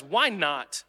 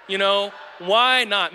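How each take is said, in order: First: Said in the usual way. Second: Slow, louder "why not?"; emphatic why not. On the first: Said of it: "The right question is". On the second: Shown as a demonstration. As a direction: drag out "why not" with weight.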